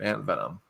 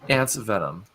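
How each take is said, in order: First: It is said at normal volume. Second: It is said a little louder.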